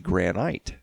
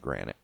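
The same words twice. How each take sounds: First: The word is said in a British way. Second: The word is said in an American way. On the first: "British and I think Australian, they say granite" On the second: "Americans say granite"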